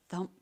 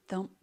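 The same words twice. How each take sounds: The two takes are said the same way.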